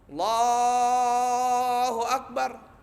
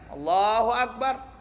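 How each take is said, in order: First: The phrase is stretched out very long. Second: The phrase is said quickly and briefly. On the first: "itu dia bacanya panjang banget" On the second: "dia nggak panjang bacanya"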